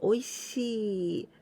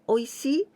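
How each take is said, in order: First: The final vowel is held long. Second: The final vowel is cut short. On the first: The speaker calls it right. "the pronunciation おいしい The long sound" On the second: The speaker calls it wrong.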